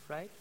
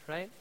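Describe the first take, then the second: Both takes have the same delivery.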